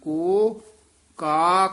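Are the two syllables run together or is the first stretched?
stretched. The first syllable is drawn out before the second. The speaker calls it right. "ਕੋ ਤੇ ਯਮਕ ਲਾ ਦੇਣੀ ਹੈ"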